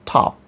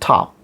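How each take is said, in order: First: The vowel is an open, unrounded American 'ah'. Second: The same.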